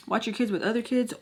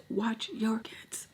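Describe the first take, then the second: First: Said in the usual way. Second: Slow hushed warning; whispered warning. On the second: Real, not acted. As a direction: lean in and whisper it. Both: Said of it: "repeated warning to viewers".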